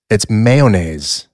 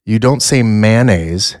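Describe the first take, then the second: First: Slow "mayonnaise" with three syllables, /meɪ-o-neɪz/; "mayonnaise" drawn out as may-oh-naise; correct mayonnaise. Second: "mayonnaise" said the common way, /mæn-eɪz/, as the wrong version; "mayonnaise" with a short "man" start, marked as the mistake. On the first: Correcting cohost, slow three-syllable "mayonnaise", /meɪ-o-neɪz/. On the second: Host mocking cohost's wrong "mayonnaise", /mæn-eɪz/ start. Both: Shown as a demonstration.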